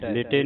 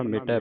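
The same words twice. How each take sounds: First: ਮਿਟੇ with a closed "ay" ending; ਮਿਟੇ said as mi-tay; mistaken e ending. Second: ਮਿਟੈ with a wide open "eh" ending; ਮਿਟੈ, last vowel broad and open. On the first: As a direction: end ਮਿਟੇ on a narrow e. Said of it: "ਮਿਟੇ ਨਹੀਂ ਪੜ੍ਹਨਾ". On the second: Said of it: "ਮਿਟੈ ਪੜ੍ਹਨਾ". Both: Shown as a demonstration.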